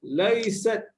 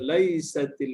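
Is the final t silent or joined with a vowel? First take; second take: silent; joined. First: The t is stopped dead with no vowel. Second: The t carries an i vowel onward. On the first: "kalau saya matikanlah" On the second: "Kalau saya hidupkan"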